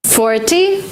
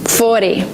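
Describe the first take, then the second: First: "Forty" with a crisp t, high rise; T pronounced as T. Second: "forty" said "fordy", falling. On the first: Teacher giving examples, clear-t "Forty". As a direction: sound the t in "Forty". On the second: Teacher giving examples, "fordy". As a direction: soften the t of "forty" to a d. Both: Shown as a demonstration. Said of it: "you pronounce it as D".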